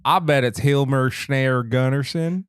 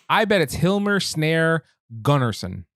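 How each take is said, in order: First: Slow, put-on Scottish lilt; hammed-up Scottish accent; mock Scottish accent. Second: Slow, uninflected read of the name; slow, careful guess at "Hilmar Snare Gunnarsson"; no inflection. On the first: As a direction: say it slowly as a joke Scotsman. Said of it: "He's Scottish". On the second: Real, not acted. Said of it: "no inflection whatsoever".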